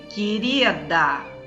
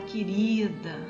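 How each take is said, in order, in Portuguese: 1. É dito com raiva mal contida. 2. É dito com carinho caloroso e afetuoso. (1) "aquela coisa que você está querendo esganar a tal da querida" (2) "é aquela coisa sentida com amor"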